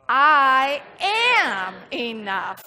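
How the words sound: The word am carries the stress. "then we're going to put the emphasis on am"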